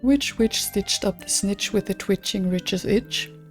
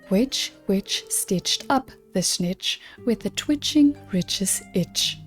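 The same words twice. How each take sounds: First: It is said at normal speed. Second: It is said slowly.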